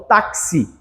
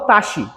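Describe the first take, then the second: First: The x is said as two sounds, ks. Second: The x is said as a single sound. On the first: The speaker calls it right. "eu falo táxi" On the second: The speaker calls it wrong. "eu não falo taxi"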